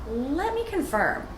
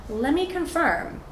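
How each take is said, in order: No difference in how they are said.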